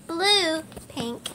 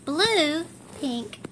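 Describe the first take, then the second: No difference in how they are said.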